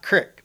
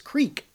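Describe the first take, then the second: First: The vowel is a short i sound. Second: The vowel is a long ee sound. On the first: The speaker calls it wrong. "It's not crick, but we all say crick" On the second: The speaker calls it right. "It's creek"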